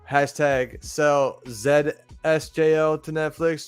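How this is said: The letter Z is said as zed.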